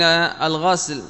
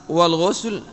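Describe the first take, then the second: First: الغسل said "al-ghasl", with a; fatha on the ghayn. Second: والغسل said "wal-ghusl", with u; rounded u after gh in والغسل; damma on the ghayn. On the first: Teacher contrasting two terms, الغسل as "al-ghasl". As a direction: open a after gh in الغسل. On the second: Teacher contrasting two terms, والغسل as "wal-ghusl". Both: Shown as a demonstration. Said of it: "من فرق بين الغسل والغسل".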